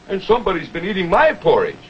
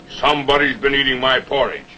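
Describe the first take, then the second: First: It is said in a middle-sized voice. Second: It is said in a big, deep voice.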